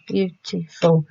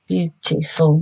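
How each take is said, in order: First: Beautiful said slowly, beat by beat; slow syllable split. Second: Said in the usual way. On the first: Shown as a demonstration. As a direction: stretch Beautiful into its three beats. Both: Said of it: "How many syllables?".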